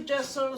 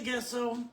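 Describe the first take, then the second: First: "gesso" said with a soft g, like "jesso"; soft g pronunciation. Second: "gesso" said with a hard g, as in guess; hard g pronunciation. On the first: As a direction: begin "gesso" with a j sound, as in jet. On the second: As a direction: begin "gesso" like the word guess. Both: Shown as a demonstration. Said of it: "some people say gesso".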